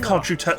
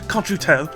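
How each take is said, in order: First: It is said in the speaker's usual accent. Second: It is said in a put-on British accent.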